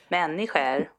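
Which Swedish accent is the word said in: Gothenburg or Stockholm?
Gothenburg. The word is said in a Gothenburg accent. "Det kanske funkar på göteborgska också"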